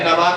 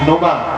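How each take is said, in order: First: The first vowel is a plain 'a' sound. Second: The first vowel is an 'u' sound. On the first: The speaker calls it wrong. "अरे नमा नहीं है" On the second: The speaker calls it right. "नुमा है"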